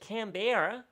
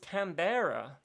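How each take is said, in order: First: It is said in an imitated Australian accent. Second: It is said in the speaker's ordinary accent.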